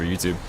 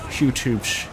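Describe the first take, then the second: First: Said in the usual way. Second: Upbeat YouTuber intro voice. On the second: Shown as a demonstration. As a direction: say it like a YouTube host. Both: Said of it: "you'll get to hear the YouTuber voice too".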